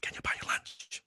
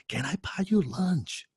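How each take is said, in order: First: Timid whisper of the invitation; quietly asking his idol to lunch. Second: Eager question. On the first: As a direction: breathe the question nervously. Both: Retold or imitated. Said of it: "That one question changed my life".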